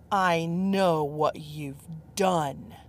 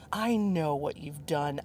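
First: Slow, hissed whisper; menacing whisper. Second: Said in the usual way. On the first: Acted. Judgmental man accuses her on the balcony in a slow whisper.

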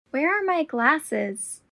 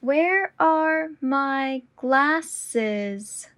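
First: Said in the usual way. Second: Very slow and deliberate. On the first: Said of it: "repetition drill, normal take". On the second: Shown as a demonstration. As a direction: draw out every word. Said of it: "repetition drill, slowed take".

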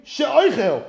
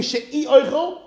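First: She'oichel run together as one smooth word. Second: She'i oichel as two words with a small break after she'i; split in two. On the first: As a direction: glide she'oichel into a single word. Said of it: "or it could mean she'oichel". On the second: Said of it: "it could mean she'i oichel". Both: Shown as a demonstration.

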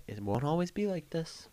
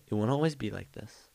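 First: Mock wise saying, higher. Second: Said in the usual way. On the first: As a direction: say it like a hopeful reassurance, pitched up. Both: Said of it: "And I'ma say".

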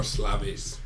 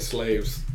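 First: "Slavies" in two syllables, ending in -eez; alternative pronunciation. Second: "slaves" said as one syllable; first pronunciation attempt. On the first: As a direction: try "Slavies" with an added ee sound, quietly. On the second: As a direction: read "slaves" like the English word, long A. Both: Shown as a demonstration. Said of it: "Or Slavies".

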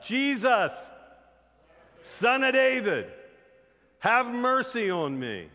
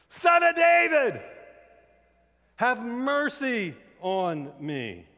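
First: High, drawn-out shout across a crowd; crying out. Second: Full-force high scream, very drawn out; yelling louder. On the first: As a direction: shout slowly and loudly for mercy. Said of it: "Bartimaeus starts crying out". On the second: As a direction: bellow the plea at the top of your voice, slowly. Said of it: "He just yelled louder". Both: Retold or imitated.

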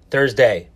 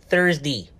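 First: Thursday ending in a full "day"; full day-name ending. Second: Thursday ending in "dee"; casual day-name ending. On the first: Repeats word with full final syllable. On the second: Corrects own day-name ending by repeating. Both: Real, not acted.

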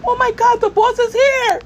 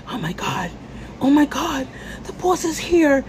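First: Hammed-up panic. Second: Mock panic. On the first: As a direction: squeal it like a panicking worker. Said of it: "And you're like". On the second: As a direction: play a startled coworker, lightly. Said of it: "everyone is like".

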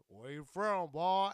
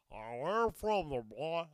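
First: Lightly mocked challenge, louder on BOY; a first weak stab at a menacing questioner; half-hearted hostile questioner. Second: Loud, throaty put-on questioner; phlegmed-up mock challenge. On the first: Comedian imitating someone sizing up a stranger, lightly mocked challenge. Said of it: "that didn't give it justice". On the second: Comedian demonstrating how strangers ask it, phlegmed-up mock challenge. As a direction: hack the question out through phlegm. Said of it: "phlegm it up". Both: Shown as a demonstration.

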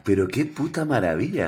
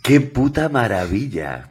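First: Said in the usual way. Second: Slow, louder delight; relishing exclamation. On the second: Real, not acted. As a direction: savour every word of it. (exclamación lenta y más fuerte, con gusto)

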